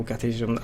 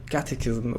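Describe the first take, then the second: First: Catechism shortened to KAT-eh-zum; alternative pronunciation. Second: Catechism said KAT-eh-kiz-um, with a hard k; first pronunciation attempt. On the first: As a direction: quietly try Catechism without the middle k. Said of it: "I don't know". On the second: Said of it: "the right way to pronounce his name". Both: Shown as a demonstration.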